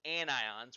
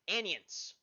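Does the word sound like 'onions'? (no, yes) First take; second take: no; yes. First: It is said the standard way, not like onions. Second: It is said sounding like the word onions. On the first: This is the standard pronunciation. The speaker calls it right. "which is the proper way of pronouncing it" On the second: This is how a colleague from Louisiana says it. The speaker calls it wrong. "She pronounces it anions"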